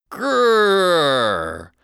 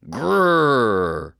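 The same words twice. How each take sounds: First: Louder growl. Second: Tiny, timid growl like a kitten. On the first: Lost boy growling to scare animals, louder growl. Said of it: "I growled just a little louder". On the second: Boy scaring animals in dark, kitten growl. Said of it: "I growled like a kitten". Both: Acted.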